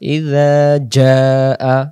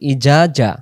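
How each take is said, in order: First: The consonant in the first word is a soft 'dh'. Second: The consonant in the first word is a hard 'j'. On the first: The speaker calls it right. "সেখানে জাল অক্ষর।" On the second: The speaker calls it wrong. "তখন দুই অক্ষরে জিমে রূপান্তরিত হবে"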